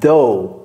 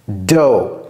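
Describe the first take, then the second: First: It starts with a th sound, tongue between teeth. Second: It starts with a firm d sound. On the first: The speaker calls it wrong. "ne mettez pas la langue entre les dents" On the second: The speaker calls it right. "appuyez sur le D"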